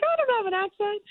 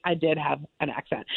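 First: Much higher squeaky mock-offended voice; indignant denial. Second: Said in the usual way. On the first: Young actress denying her accent to the agent, high squeaky protest.

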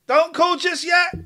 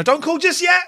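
First: High, slower urgent repeat; urgent call-out. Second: Urgent call-out. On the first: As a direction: stretch it out to hold callers back. Host repeats warning, slower. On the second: Host stopping callers urgently. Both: Real, not acted.

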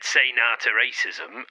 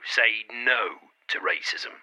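First: "nah" with an open ah vowel; "nah" said as dialect for no, rhyming with "bah"; nah, not no. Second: "no" slow with a clear oh vowel; "no" carefully rounded, rhyming with "go"; no, not nah. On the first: Retold or imitated. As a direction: quote it back with a casual "nah". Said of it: "You just said". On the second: Shown as a demonstration. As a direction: correct it with a deliberate, drawn-out "no". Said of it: "it's no".

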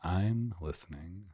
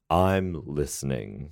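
First: Slow echo of a catchphrase; Frasier Crane. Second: Slow radio-host catchphrase; Frasier Crane. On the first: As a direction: copy the slow radio-psychiatrist line. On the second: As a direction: draw it out like a radio psychiatrist. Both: Acted. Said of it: "I'm Doctor Fraser Crane".

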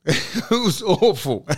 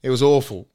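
First: Laughing. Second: Said in the usual way. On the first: Real, not acted.

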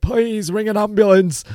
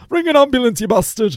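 First: High, strained plea for an ambulance; like [name]. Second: Hammed-up [name] demanding an ambulance; [name] impression. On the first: Retold or imitated. Panicking on the motorway, begging the lad to phone, high and strained. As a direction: beg in a high, desperate retold voice. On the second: Mocking his own plea as [name], brash and shrill-high. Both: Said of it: "I sound like [name] there".

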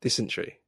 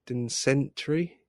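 First: "Dysentery" said right, DIS-en-tery; corrected. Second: Slow unsure "dinsentry" with an n, stress on din; mispronounced. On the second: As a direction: sound out "dinsentry" slowly, unsure. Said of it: "I don't know how to pronounce this". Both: Real, not acted.

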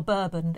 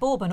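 First: "Bourbon" tried as BUR-bun; "Bourbon" with first syllable like "burr"; drink pronunciation. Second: "Bourbon" tried as BOR-bun; "Bourbon" with first syllable like "bore"; biscuit pronunciation. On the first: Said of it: "It's Bourbon". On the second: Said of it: "Is that how you say it?". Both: Shown as a demonstration.

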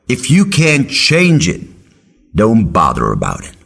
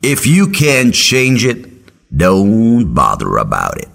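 First: Slow, higher, insistent mentor; wise old mentor insisting. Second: Slow, lightly voiced mentor advice; wise old mentor. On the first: Retold or imitated. Professor slowly repeating his advice to the student. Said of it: "He's like". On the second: Professor slowly advising his student on politics. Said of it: "He said".

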